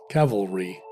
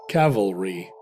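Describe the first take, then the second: Both takes have the same delivery.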